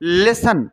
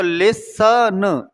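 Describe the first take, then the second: First: लिसन said in one piece without T; whole word, silent T. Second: लिसन slowly stretched as "lis... sa... n"; sound by sound. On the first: Teacher introducing the next word, लिसन with silent T. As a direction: say लिसन straight as "li-san". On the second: Teacher showing where T is silent, लिसन broken up slowly. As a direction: pull लिसन apart into slow sounds, no T. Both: Shown as a demonstration. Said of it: "T silent है इसमें".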